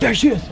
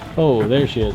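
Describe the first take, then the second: First: It is said urgently, with energy. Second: It is said casually, without urgency.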